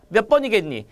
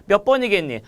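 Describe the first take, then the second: No difference in how they are said.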